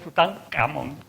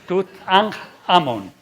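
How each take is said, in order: First: The middle consonant lacks the rough throat sound. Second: The middle consonant is a rough throat sound. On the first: The speaker calls it wrong. "no digáis Tutankamón" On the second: The speaker calls it right. "los egipcios tenían el fonema J"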